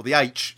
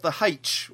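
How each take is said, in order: First: "H" said as "aitch"; name the letter "H" with no h sound, aitch; standard letter name. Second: "H" said as "haitch"; name the letter "H" with a breathed h in front, haitch; aspirated letter name. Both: Shown as a demonstration.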